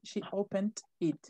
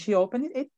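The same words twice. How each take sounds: First: The words opened and it are said separately. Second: The words opened and it run together. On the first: The speaker calls it wrong. "They don't say she opened it" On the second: The speaker calls it right. "They say it together"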